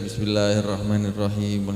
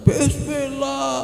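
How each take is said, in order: First: It is said at a normal raised volume. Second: It is shouted very loudly.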